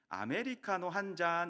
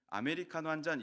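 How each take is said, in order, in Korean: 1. 부산 사투리 억양이에요. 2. 수도권 표준 억양이에요. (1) "부산에 갔더니 아메리카노 한 잔 이렇게 말하더라고요" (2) "수도권에서는 아메리카노 한 잔 이렇게 말하잖아요"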